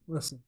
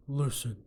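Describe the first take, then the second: First: Said in the usual way. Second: Terse tough-guy opener; Clint Eastwood. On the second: Acted. Coach Frankie addressing his fighter, Clint Eastwood impression. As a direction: lightly put on a movie tough guy's voice. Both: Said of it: "what's a good Clint Eastwood impression".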